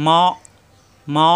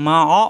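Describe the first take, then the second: First: মা cut off with a hard hamza stop in the throat; stopped in throat. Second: মা অ read with the মা bouncing open like qalqala; wrong bouncing reading. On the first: Teacher shows students the right reading, মা stopped in the throat. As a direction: clip মা shut with a hard glottal catch, no bounce. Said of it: "বাড়ি খাবে না, এখানে গলার ভিতরে আটকে যাবে". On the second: Teacher shows students the wrong reading, মা অ bounced open. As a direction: say মা অ with a bouncing release after the মা. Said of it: "এখানে যদি আমরা এভাবে পড়ি". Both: Shown as a demonstration.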